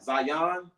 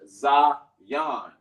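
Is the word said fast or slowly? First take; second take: fast; slowly. First: The word is said quickly, syllables run together. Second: The word is said at a careful, slower pace. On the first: "sometimes people say it fast" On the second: "the word is pronounced is Zion"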